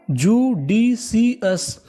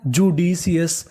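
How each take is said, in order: First: judicious stretched out very slowly, part by part; syllable by syllable. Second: Said in the usual way. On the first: Shown as a demonstration. Teacher assembling judicious for students, slowly in separate syllables. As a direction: sound out judicious as ju, di, si, us with gaps. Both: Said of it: "तो meaning क्या बनी".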